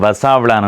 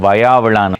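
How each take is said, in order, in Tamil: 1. இரண்டாவது மெய்யெழுத்து s ஒலி. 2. இரண்டாவது மெய்யெழுத்து y ஒலி. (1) "நிறைய பேர் வசாவிளான் என்று சொல்றவர்கள்" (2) "சரியான உச்சரிப்பு வயாவிளான்"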